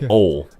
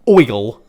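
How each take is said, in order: First: The word has a plain 'o' vowel. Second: The word has an 'oy' diphthong. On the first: "I say ol" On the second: "I don't say oil"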